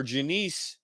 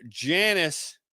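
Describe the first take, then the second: First: "Janice" as juh-NEECE, questioning rise; second-syllable stress pronunciation. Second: "Janice" as JAN-iss; first-syllable stress pronunciation. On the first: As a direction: say "Janice" with a long stressed ee at the end. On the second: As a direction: say "Janice" with stress up front, short second syllable. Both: Shown as a demonstration. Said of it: "Sorry if I'm butchering that".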